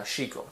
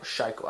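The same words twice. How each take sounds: First: Shiko said SHEE-ko, with an "ee"; SHEE-ko pronunciation. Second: Shiko said SHY-ko, with a long "i"; SHY-ko pronunciation. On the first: Lifter unsure of a program's name, Shiko as SHEE-ko. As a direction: say Shiko with first syllable like "she", softly. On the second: Lifter offers another guess at the name, Shiko as SHY-ko. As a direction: say Shiko with first syllable like "shy", softly. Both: Real, not acted. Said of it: "don't know how to fucking pronounce it".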